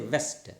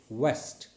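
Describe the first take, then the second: First: It begins with a lip-and-teeth v sound. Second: It begins with a rounded-lip w glide. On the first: The speaker calls it wrong. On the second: The speaker calls it right.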